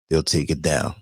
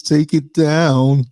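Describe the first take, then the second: First: Said in the usual way. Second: High, slow whiny demand; whiny complainer voice. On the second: Retold or imitated. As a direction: draw it out like a petty complainer. Mocking an offended viewer.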